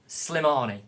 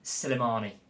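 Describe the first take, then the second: First: The opening s and l form one cluster. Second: An extra vowel splits the opening s and l. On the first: The speaker calls it right. "it's definitely Slimani" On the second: The speaker calls it wrong. "Have I said it right?"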